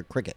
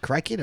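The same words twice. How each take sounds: First: Said in the usual way. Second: "cricket" with the first vowel opened to "cry"; "cricket" mispronounced with a long i; alternate pronunciation. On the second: Shown as a demonstration. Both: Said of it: "Is it cricket or cricket?".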